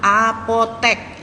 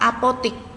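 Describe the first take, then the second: First: The word ends with the syllable 'tek'. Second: The word ends with the syllable 'tik'. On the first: This is the standard form. The speaker calls it right. "Tulisannya yang benar adalah apotek" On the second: This is the informal everyday form. The speaker calls it wrong. "dalam sehari-hari kita berbahasa apotek itu kita ucapkan dengan kata apotik"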